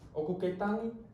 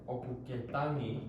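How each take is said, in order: First: It is said with a question intonation. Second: It is said with a statement intonation.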